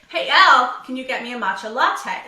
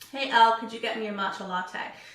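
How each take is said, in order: First: It is said with high, projected energy. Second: It is said with low, flat energy.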